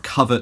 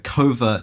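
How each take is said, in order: First: The word has the older, traditional pronunciation. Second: The word has the newer, current pronunciation.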